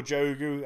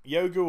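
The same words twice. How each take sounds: First: "Jogu" with the J as in jam; hard J. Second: "Yogu" with the J said as a Y. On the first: Offering viewers the other reading of the name, "Jogu" with a hard j. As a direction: say "Jogu" opening on an English j sound. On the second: Offering viewers one reading of the name, "Yogu" with a y sound. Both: Shown as a demonstration. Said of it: "depends on the pronunciation of the J".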